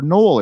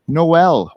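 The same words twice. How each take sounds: First: Noel said with a weak ending, NO-ul; alternative Noel. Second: Noel said like the carol, no-EL; two-syllable Noel. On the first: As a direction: let the end of Noel shrink to "ul", nearly "knoll". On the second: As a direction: give Noel a clear second syllable, "EL". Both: Shown as a demonstration. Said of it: "or Noel, if you will".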